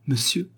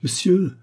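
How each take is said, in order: First: Mocking echo. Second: High, loud yelp of pain; cry of pain. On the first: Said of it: "dit l'autre". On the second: Acted. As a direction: yelp as his ear is pinched. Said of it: "cria de douleur ce dernier".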